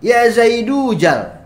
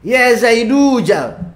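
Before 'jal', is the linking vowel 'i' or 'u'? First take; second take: u; u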